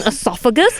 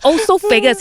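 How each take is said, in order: First: The word begins with an 'eh' sound. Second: The word begins with an 'oh' sound. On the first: The speaker calls it right. "You mean esophagus?" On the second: The speaker calls it wrong. "I said it wrong my whole life"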